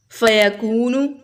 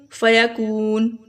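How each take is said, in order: First: Slow "فیکون" ending in voiced -nu; full word ending. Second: Slow "فیکون" closed on n; stopped word ending. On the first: Teacher reading before the stop, "فیکون" with final u sounded. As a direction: say "فیکون" as fayakoonu, long oo then short u. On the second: Teacher showing the stop form, "فیکون" drawn out to n. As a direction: say "فیکون" as fayakoon, long oo, no final vowel. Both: Shown as a demonstration. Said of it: "وقف کی صورت میں".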